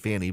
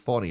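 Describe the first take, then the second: First: The first vowel sounds like the vowel in 'fan'. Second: The first vowel is an open 'ah' sound. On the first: The speaker calls it wrong. "I've been saying Fanny" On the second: The speaker calls it right. "but it's Fani apparently"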